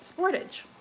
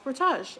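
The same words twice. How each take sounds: First: It is said with an American pronunciation. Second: It is said with a Canadian pronunciation.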